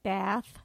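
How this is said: The word is said with an American vowel. The speaker calls it wrong. "like we would in this country"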